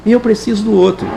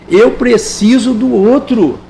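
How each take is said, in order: First: Said in the usual way. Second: Eu preciso do outro slow, stress on eu; a slow earnest insistence; slow emphatic. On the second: Shown as a demonstration. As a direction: land each word slowly.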